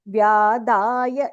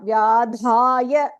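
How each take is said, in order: First: The d is said without a puff of breath. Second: The d is said with a puff of breath. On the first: The speaker calls it right. "There is no Mahaprana there. This Da is Alpa Prana" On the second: The speaker calls it wrong. "it is not Vyadhaya"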